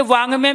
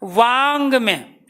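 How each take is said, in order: First: Said in the usual way. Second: वांग में drawn out slowly, each sound spelled out; teacher slows वांग में to show the nasal; slow demo. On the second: Shown as a demonstration. (वांग में को बहुत धीरे बोलकर समझाना) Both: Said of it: "जैसे शब्द आ गया".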